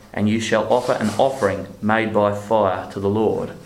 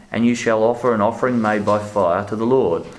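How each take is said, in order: The two takes are said the same way.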